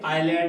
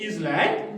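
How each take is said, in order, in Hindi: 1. इस शब्द में s साइलेंट है। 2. इस शब्द में s उच्चारित होता है। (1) "एस साइलेंट रहता है, और ये आइलैंड है" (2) "ये इसलैंड नहीं"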